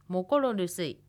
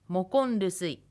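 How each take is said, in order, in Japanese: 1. 'rusuy'の前では、完全な'mokoro'が保たれます。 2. 'rusuy'の前では、'ro'が'n'に変わります。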